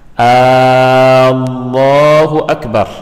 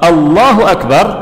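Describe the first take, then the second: First: The first vowel is drawn out long. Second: The first vowel is kept short. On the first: It asks whether God is the greatest. The speaker calls it wrong. "Contoh ucapan Allahu Akbar yang salah, a-nya panjang" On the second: It states that God is the greatest. The speaker calls it right. "Kalau Allahu Akbar artinya Allah Maha Besar"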